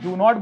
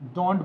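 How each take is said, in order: First: It is said as two separate full words. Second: It is said as one contracted syllable. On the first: "इसको हम डू नॉट बोलते हैं" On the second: "इसको हम डोंट बोलते हैं"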